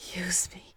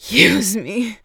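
First: It is said softly, as a whimper. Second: It is said loudly, almost screamed.

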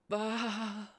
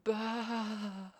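First: The bleat is short. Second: The bleat is drawn out longer.

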